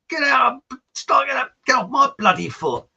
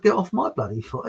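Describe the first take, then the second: First: High, loud mock-furious outburst; exasperated, raised-voice imitation; angry shout. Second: Said in the usual way. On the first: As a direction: yell it like a trodden-on partner. Dance partner shouting, mistaken for song title. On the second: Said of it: "I never heard of".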